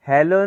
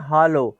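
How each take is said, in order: First: हेलो with an English e, the wrong way; हेलो as in English hello, marked wrong; हेलो with e, not German. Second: हालो with an open a, ha-lo; हालो, open aa not e; right German a. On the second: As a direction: say हालो with a wide "aa" sound. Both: Shown as a demonstration. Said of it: "हेलो नहीं".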